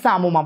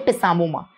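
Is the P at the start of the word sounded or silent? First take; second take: silent; sounded. First: The initial P is not pronounced. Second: The initial P is pronounced aloud. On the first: The speaker calls it right. "the P is silent" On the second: The speaker calls it wrong. "Don't say pisamoma"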